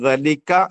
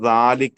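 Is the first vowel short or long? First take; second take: short; long. First: The first vowel is short. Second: The first vowel is drawn out long. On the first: This is how the word is written. "ദലിക്ക എന്ന് നമ്മൾ എഴുതും" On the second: This is how the word is read aloud. "ദാലിക്ക എന്ന് നമ്മൾ വായിക്കും"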